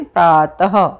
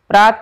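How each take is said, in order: First: The word ends with a short breathy h. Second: The word ends without a final h sound. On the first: The speaker calls it right. "आधे ह की जैसा" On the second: The speaker calls it wrong. "प्रात नहीं बोलेंगे"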